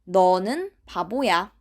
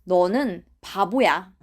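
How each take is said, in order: No difference in how they are said.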